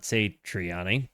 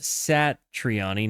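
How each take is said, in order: First: Satriani with a long "say" at the start; mispronunciation demo. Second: Satriani with a short "sat" at the start; correct pronunciation. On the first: Streamer shows how not to say it, [name] said "SAY-tree-AH-nee". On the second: Streamer reads out the correct name, [name] said "SAT-ree-AH-nee". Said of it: "pronounced [name], not [name]". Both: Shown as a demonstration.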